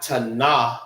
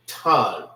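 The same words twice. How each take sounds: First: Tana broken into two syllables, ta-NAH; wrong pronunciation. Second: Tan as one syllable, 'tahn'; correct pronunciation. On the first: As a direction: say tana slowly with an extra 'ah' on the end. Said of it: "Not tana". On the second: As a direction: say Tan in one falling sound, tahn. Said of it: "It forms one sound". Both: Shown as a demonstration.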